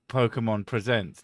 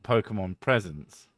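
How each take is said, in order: First: The stress falls on the second syllable of presents. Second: The stress falls on the first syllable of presents. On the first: Presents is the verb meaning it shows something. The speaker calls it right. "Third person singular to present" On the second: Presents is the noun meaning gifts. The speaker calls it wrong.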